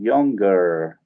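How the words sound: It is said in an American accent, R sounded.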